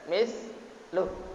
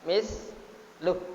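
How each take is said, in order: First: The final vowel is drawn out, flowing onward. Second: The word stops short on the final consonant. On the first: The reading continues without stopping. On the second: The reading stops at this word. "Kalau berhenti"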